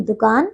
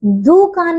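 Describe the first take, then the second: First: दुकान with a short "du", low and softer; correct pronunciation. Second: दुकान with a long, slow "doo"; mispronunciation. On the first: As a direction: keep the start of दुकान short. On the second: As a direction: stretch the first vowel of दुकान. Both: Shown as a demonstration. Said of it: "दुकान नहीं".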